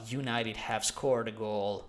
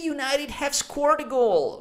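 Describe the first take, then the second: First: It is said in an annoyed, upset tone. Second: It is said in a thrilled, excited tone. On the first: The speaker does not support the team and is unhappy. "you are pissed off, you're upset" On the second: The speaker supports the team and is delighted. "much more excited"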